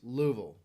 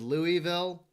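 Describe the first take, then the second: First: The name is said in the local Kentucky way. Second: The name is said in the usual outsider way. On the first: This is how people there say it. "there they pronounce it Louisville" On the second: This is how outsiders usually say it. "Everybody else says Louisville"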